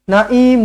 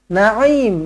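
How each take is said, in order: First: A glottal stop comes before the final syllable. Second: A throaty pharyngeal sound comes before the final syllable. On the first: The speaker calls it wrong. "Bukan hamzah, bukan naim. ... salah" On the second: The speaker calls it right.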